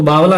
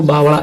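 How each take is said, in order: First: बावला said with a plain L sound; बावला with an ordinary la, the reading to avoid; wrong reading. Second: बावड़ा said with the flapped ड़ sound, not la; बावड़ा with a retroflex flap in the middle; correct reading. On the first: Teacher shows students the wrong reading, plain la. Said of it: "तो बावला नहीं पढ़ते". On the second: Teacher shows students the right reading, flapped ड़. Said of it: "इसको बावड़ा ऐसे बोला जाता है". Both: Shown as a demonstration.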